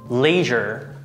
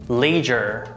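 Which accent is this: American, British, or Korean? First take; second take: American; American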